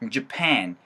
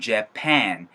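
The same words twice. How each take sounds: First: The first syllable is weak and the second dominates. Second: The first syllable is said fully and clearly. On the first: "J, A 사운드가 힘이 빠져버리면 펜 사운드가 너무 강력하게 들리면서" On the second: "이게 원래는 Japan, Japan, Japan 사운드지만"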